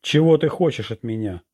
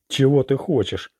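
First: A mildly raised narrated shout. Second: A sharp, slightly raised bark. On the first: Orlando shouts at the unseen witch, mild shout. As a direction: call it out, spinning around. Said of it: "закричал". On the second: Orlando demands answers from the witch, barking. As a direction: snap the question at her. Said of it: "рявкнул Орландо". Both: A narrator's reading.

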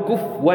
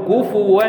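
First: "كفوا" said quickly as kuf-wan, w right after f; "كفوا" as the rejected short form kufwan; wrong reading. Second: "كفوا" drawn out as ku-fu-wan with the u kept; "كفوا" as the approved Quranic form kufuwan; correct reading. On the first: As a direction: clip "كفوا" into two syllables, kufwan. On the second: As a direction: give "كفوا" its full three syllables, kufuwan. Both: Shown as a demonstration. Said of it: "لا نقول كفوا، إنما نقول كفوا".

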